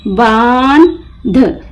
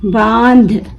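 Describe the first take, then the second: First: बांध slowly split, long बान, pause, ध; broken into parts. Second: Said in the usual way. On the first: Shown as a demonstration. Teacher breaking the word for learners, बान... ध with a gap. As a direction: detach the final ध of बांध. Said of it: "तीन हरूफ एक साथ पढ़ेंगे". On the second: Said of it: "मिलाकर पढ़ें".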